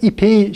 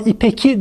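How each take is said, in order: First: The word has a softened ğ sound. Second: The word keeps a hard k sound. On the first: The speaker calls it right. "Yazarken de söylerken de İpeyi şeklinde söyleriz" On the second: The speaker calls it wrong. "Ama İpeki demeyiz"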